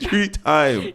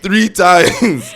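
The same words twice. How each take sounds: First: High playful shout of three times; high mock shout. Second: Laughing, shouted high and loud. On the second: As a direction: yell it out while laughing. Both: Shown as a demonstration. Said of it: "How many times did I say it".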